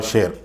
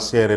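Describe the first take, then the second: First: The middle consonant is an 'sh' sound. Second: The middle consonant is a plain 's' sound. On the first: The speaker calls it right. "சரியான உச்சரிப்பு" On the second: The speaker calls it wrong. "எபிரேய மொழியிலே ஆசேர் என்று சொல்லப்பட்டிருக்கிறது"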